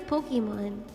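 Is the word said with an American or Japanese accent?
American. It is said with an American accent. "but I'm gonna say Pokemon"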